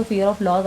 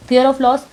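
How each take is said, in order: First: Said in the usual way. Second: Fear of loss said louder and higher, with the punch on Fear; emphatic repeat. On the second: Shown as a demonstration. Scene: tarot reader repeats the fear to drive it home, emphatic. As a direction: hit Fear hard, then let of loss fall.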